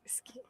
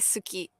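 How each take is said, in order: First: The u vowel is faint and nearly silent. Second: The u vowel is fully and clearly voiced. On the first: The speaker calls it right. "the U is is not silent, but it's very, like, subtle" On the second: The speaker calls it wrong. "we don't say suki"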